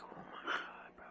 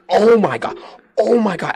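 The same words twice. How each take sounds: First: Whispered disbelief under the breath; exasperated whisper. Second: High, loud exasperated cry; losing it. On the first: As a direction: mutter it to yourself, barely audible. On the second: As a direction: re-enact a loud outburst of disbelief. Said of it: "when I say lost it". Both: Retold or imitated.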